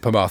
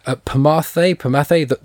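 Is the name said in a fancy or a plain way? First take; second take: plain; fancy. First: The name is said in a simple, plain way. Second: The name is said in an elaborate, fancy way. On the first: The speaker calls it right. "that's it" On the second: The speaker calls it wrong. "I'm trying to make it sound too fancy"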